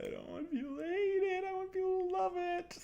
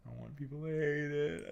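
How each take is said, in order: First: Very high squeaky plea. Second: Said in the usual way. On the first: Pretend. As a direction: squeak it like a cartoon. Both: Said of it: "repeated line".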